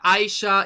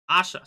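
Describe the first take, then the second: First: The name begins with an 'eye' sound. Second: The name begins with an 'ah' sound. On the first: This is the usual English reading. The speaker calls it wrong. "is how you will pronounce it in English" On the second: This is the actual pronunciation. The speaker calls it right. "it's actually Asha"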